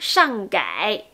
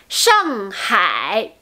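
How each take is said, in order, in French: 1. Le h au début de hai est omis. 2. Le h au début de hai est prononcé. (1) "sinon ça devient Shanghai, Shanghai. C'est pas correct" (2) "n'oubliez pas le H"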